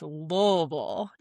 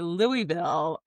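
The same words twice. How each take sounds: First: The name is mumbled, syllables slurred together. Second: The name is said clearly, every syllable distinct. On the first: This is how locals say it. The speaker calls it right. "You gotta say it like you got some marbles in your mouth" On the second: This is how an outsider says it. The speaker calls it wrong. "when I heard you say Louisville"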